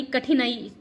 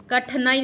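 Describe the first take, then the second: First: कठिनाई with clear i after ठ; correct form. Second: कठिनाई said as kath-nai; wrong form. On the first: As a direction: say कठिनाई as ka-thi-nai. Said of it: "कठिनाई शुद्ध है". (सही उच्चारण, कठिनाई में इ) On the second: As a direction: drop the i after ठ in कठिनाई. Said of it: "कठिनाई नहीं". (गलत उच्चारण, कठिनाई में इ गायब) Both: Shown as a demonstration.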